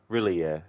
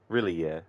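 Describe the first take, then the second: The two takes are said the same way.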